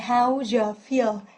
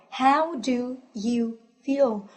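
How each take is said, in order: First: Do you is blended quickly into je. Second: Do you is said as two full words.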